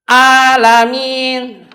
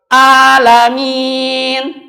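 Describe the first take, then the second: No difference in how they are said.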